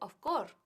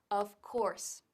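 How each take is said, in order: First: The final S sound of 'course' is dropped. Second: The final S sound of 'course' is pronounced. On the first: The speaker calls it wrong. "hay gente que dice of course, que no se dice" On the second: The speaker calls it right. "no hay que olvidarse de la S"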